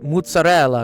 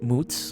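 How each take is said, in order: First: All four syllables are said in full. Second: The word is clipped to a single syllable. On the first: This is the proper Italian form. The speaker calls it right. "it's mozzarella" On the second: This is the Italian-American mobster form. The speaker calls it wrong. "not moots"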